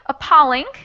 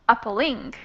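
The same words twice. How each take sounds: First: The stress is on the second syllable. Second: The stress is on the third syllable. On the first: "the second way would be appalling" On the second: "the last one would be appalling"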